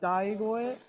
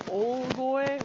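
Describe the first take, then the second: First: The word begins with the syllable 'dai'. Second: The word begins with a long 'oo' sound. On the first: The speaker calls it wrong. "rather than um Daigoe" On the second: The speaker calls it right. "it's Olgoe rather than"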